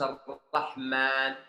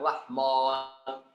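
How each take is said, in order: First: The 'ma' is light, made only with the lips. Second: The 'ma' is heavy, with the tongue root raised. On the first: The speaker calls it right. "Harus Ar-Rahman" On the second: The speaker calls it wrong. "jangan Ar-Rahman"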